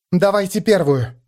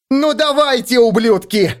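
First: Said in the usual way. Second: High, loud furious yell. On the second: A narrator's reading. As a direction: yell a challenge at them. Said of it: "заорала она".

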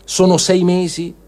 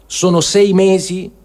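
Both takes have the same delivery.

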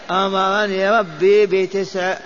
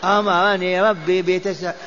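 No difference in how they are said.

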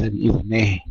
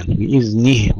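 First: بإذنه ending in a slack "neh". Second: بإذنه ending in a pure "nih"; Arabic kasra. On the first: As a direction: let the nun's i in بإذنه slide to e. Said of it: "وليس بإذنه". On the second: Teacher repeats it correctly, Arabic kasra. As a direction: give بإذنه a true i on the nun. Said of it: "كسرا عربيا لا أعجميا". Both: Shown as a demonstration.

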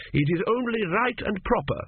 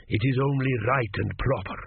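First: High, insistent retort; pointed echo. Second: Said in the usual way. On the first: A narrator's reading. Young king echoes the priest's own words, pointedly high. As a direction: throw it back in a raised voice.

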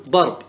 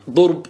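First: ضرب said darb, with an a; correct vowelling. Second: First ضرب said durb, with a u; wrong vowelling. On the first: Teacher correcting the mistake, ضرب properly voiced darb. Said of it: "وإنما تقول ضرب". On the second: Teacher warning what not to say, ضرب mispronounced as durb. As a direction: give the faulty ضرب as durb. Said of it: "لا تقل مثلًا". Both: Shown as a demonstration.

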